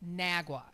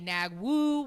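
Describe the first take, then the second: First: The name is one word ending in 'wa'. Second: The name is one word ending in 'woo'. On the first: The speaker calls it right. "but it is pronounced Nagua" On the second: The speaker calls it wrong. "some will say Nagwoo, where I'm not sure where you get the woo from"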